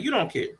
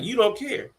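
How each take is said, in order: First: Flat echo. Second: High, whiny quote of the sister; a pitched-up whine; mocking sister. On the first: Retold or imitated. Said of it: "I would just do it very flatly". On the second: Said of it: "repeating to her the words".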